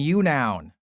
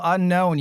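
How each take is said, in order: First: It is said as 'you' plus 'noun'. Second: It is said like the word 'unknown'.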